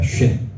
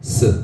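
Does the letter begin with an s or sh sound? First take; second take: sh; s. First: It starts with a hushing sh sound. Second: It starts with a hissing s sound. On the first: The dot is on the right side. "이게 오른쪽에 있으면 쉰, 에스에이치 발음입니다" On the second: The dot is on the left side. "왼쪽에 있으면 스 발음입니다"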